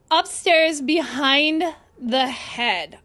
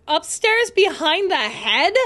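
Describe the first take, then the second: First: Slow falling statement, Upstairs behind the head; reading the clue aloud, falling at the end; read out flatly. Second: Upstairs behind the head? rising at the end as a question; asking back, rising on head; puzzled question. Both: Shown as a demonstration.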